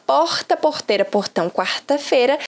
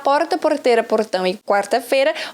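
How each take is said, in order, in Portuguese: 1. O R soa como o português de Minas Gerais. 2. O R soa como o português de São Paulo. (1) "do R do Mineiro" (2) "do Paulista"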